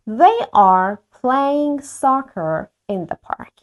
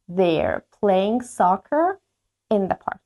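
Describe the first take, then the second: First: They are is said as two full words. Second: They are is contracted into one syllable. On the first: "به جای که بگم they are" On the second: "مخففش میکنم توی مکالمه"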